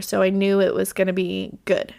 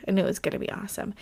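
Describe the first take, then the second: First: Said in the usual way. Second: Fast, softer muttered aside; quick quiet aside. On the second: Real, not acted. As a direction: rush it under the breath. Repeats line as quick aside.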